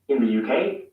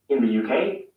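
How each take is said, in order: No difference in how they are said.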